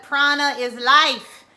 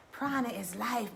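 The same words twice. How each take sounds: First: Louder, slow, every word landed on Prana is life; emphatic declaration. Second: Quieter, settled repeat of Prana is life; soft echo. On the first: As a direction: proclaim it like a truth. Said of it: "repeated softly". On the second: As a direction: let it sink in gently. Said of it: "repeated loudly". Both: Shown as a demonstration.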